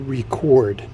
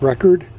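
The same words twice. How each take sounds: First: The stress is on the second syllable. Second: The stress is on the first syllable. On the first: The speaker calls it right. "I'm going to say record" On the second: The speaker calls it wrong. "not record"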